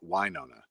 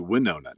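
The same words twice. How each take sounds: First: The first syllable sounds like 'wine'. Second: The first syllable sounds like 'win'. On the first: The speaker calls it wrong. "not Winona. ... not wine" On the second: The speaker calls it right. "it's supposed to be Winona, ... So it's more like win"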